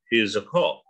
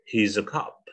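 First: The vowel in cop is a rounded o. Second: The vowel in cop sounds like cup. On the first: "Tapi kalau British tetap bacanya cop" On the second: "Mereka bacanya kayak A, cop, he's a cop. Kayak cangkir jadinya ya"

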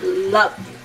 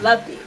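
First: It is said with strong, intense emphasis. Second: It is said with light, mild emphasis. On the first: The feeling is deep, all-out love. "There's a difference" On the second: The feeling is enjoyment, not deep love. "I loved it, but not loved it"

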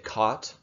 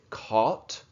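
First: The word has a non-British pronunciation. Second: The word has a British pronunciation. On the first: "but I might say caught" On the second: "in British English, people might say caught"

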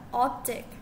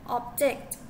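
First: The stress is on the first syllable. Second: The stress is on the second syllable. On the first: It is a noun. "object in noun state on the first syllable as a" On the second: It is a verb. "object in verb state on the second syllable as an"

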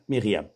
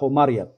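First: The name is pronounced the French way. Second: The name is pronounced the classical Arabic way. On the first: The speaker calls it wrong. "يوجد في الفرنسية" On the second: The speaker calls it right. "اللغة العربية يوجد مصطلح مريم"

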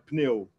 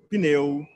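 First: The p and n are joined with no vowel. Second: A short vowel separates the p and n. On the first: This is not the usual colloquial Brazilian form. "não falam pneu" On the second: This is the usual colloquial Brazilian form. "falam pneu"

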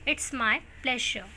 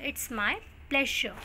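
No difference in how they are said.

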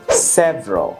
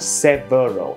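First: The middle syllable is dropped. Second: The middle syllable is fully pronounced. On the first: "cũng được rút gọn" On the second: "chứ không phải là several"

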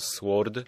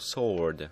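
First: The w sound is pronounced. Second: The w sound is silent. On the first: The speaker calls it wrong. "Nie czyta się sword" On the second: The speaker calls it right. "tylko sword"

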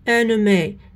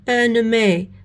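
Both takes have the same delivery.

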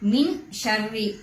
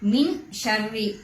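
First: The n sound is pronounced clearly. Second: The n sound is pronounced clearly.

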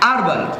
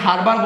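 First: The h sound at the start is silent. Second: The h sound at the start is pronounced. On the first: The speaker calls it right. "যেটির সঠিক pronouncing হচ্ছে আরবাল" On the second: The speaker calls it wrong. "যেদিকে আমরা সচরাচর হারবার বলে থাকি"

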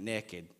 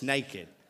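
First: The word is said in a local regional accent. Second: The word is said in a standard accent. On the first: "We say it like that in Beaufort County" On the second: "It's naked"

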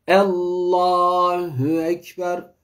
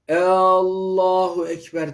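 First: The first vowel is kept short. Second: The first vowel is drawn out long. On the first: It states that God is the greatest. The speaker calls it right. "Elifle lamın arası kapalı olacak" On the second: It turns into a question asking whether God is great. The speaker calls it wrong. "elif harfini uzatmamak lazım. Yani şu yanlış"

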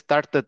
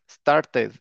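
First: The ending is a squeezed double t sound. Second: The ending is pronounced as an extra syllable. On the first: The speaker calls it wrong. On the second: The speaker calls it right.

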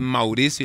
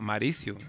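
First: The first syllable keeps its 'u' sound. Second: The first syllable drops its 'u' sound. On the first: This is how the name is meant to be said. The speaker calls it right. "mi nombre es Mauricio" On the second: This is how other people say the name. The speaker calls it wrong. "la gente me dice Maricio... se comen la U"

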